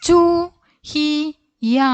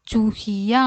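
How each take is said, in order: First: ചുഹിയ drawn out slowly and clearly; slow drill. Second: Said in the usual way. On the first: Shown as a demonstration. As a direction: spell ചുഹിയ out slowly for children. Teacher slow model word. (ചുഹിയ പതുക്കെ നീട്ടി ഉച്ചരിക്കുന്നു)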